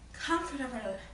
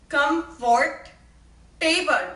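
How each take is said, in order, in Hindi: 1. यह अमेरिकी उच्चारण में कहा गया है। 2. यह भारतीय उच्चारण में कहा गया है। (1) "In America, we say comfortable" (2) "But in India, it is comfort table"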